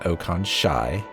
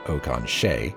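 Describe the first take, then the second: First: The last syllable has an "eye" vowel. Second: The last syllable has an "ay" vowel. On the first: The speaker calls it right. "I am pronouncing that Okan Shai ... the E I should come out as I" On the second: The speaker calls it wrong. "rather than Okan Shay ... not A"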